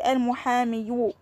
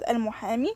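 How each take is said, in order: First: The word ends with an added 'yu' sound. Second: The word ends on a plain 'ee' sound. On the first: The speaker calls it wrong. "I can't say al-muhami yu" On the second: The speaker calls it right. "I remove the dhamma and I pronounce it like that"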